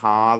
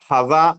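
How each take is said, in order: First: The first vowel is drawn out long. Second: The first vowel is short. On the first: This is how the word is read aloud. "ഹാ എന്ന് നീട്ടണമെങ്കിൽ" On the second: This is how the word is written. "ഹദ എന്നായിരിക്കും നമ്മൾ എഴുതുക"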